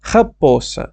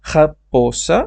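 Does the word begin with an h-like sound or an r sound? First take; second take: h-like; h-like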